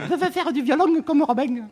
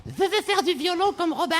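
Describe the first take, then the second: First: Put-on high, lisping little girl voice; slushy lisp. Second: Put-on high lisping little girl; slushy lisp. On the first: Shown as a demonstration. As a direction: lisp it hard like a young child. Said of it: "Fais-le avec l'accent". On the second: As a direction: lisp it like a small child. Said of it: "Elle zozotait".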